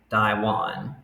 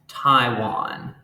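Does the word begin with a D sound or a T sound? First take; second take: D sound; T sound. First: It is said the Hokkien way, starting with D. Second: It is said the Mandarin way, starting with T.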